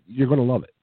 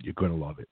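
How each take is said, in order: First: Emphatic. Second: Lower, softer aside; quiet. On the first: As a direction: punch it up like a promise. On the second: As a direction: drop it down, low and confiding. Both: Acted. Emphatic pitch, then repeated softly.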